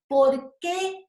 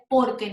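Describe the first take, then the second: First: The two parts are said with a separation. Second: The two parts are run together as one word. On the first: It asks a question. "Sienten la, la separación al hablar" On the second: It gives an answer. "Va junto"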